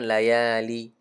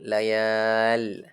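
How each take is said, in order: First: The word ends on a short i vowel. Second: The word ends on a bare l consonant. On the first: The speaker calls it wrong. "Jangan layali. Salah" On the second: The speaker calls it right. "Yang betul layal"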